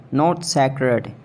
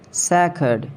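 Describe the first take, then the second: First: Sacred as seh-kred; wrong pronunciation. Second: Sacred as sack-ed; right pronunciation. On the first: Mocking a friend's wrong sacred. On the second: Teaching a friend to say sacred. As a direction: say sacred with a short a. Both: Shown as a demonstration. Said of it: "the right pronunciation".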